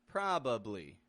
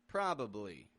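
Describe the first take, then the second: First: All three syllables are pronounced fully. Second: All three syllables are pronounced fully.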